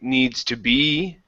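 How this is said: The voice rises at the end. The speaker calls it wrong. "coming up"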